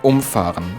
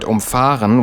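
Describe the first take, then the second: First: The stress is on the first syllable, um. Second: The stress is on the second syllable, fahr. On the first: To knock something down with a vehicle. "with a separable prefix and the stress on um" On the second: To drive around something. "with an inseparable prefix and the stress on fahr"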